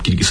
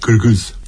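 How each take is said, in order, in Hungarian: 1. Az első magánhangzó tiszta, elülső 'i'. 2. Az első magánhangzó sötétebb, középső magánhangzó. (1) "ők nem Kirgiz" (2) "hanem Kirgiz ... Magyarországi magyarnak nehéz kiejteni"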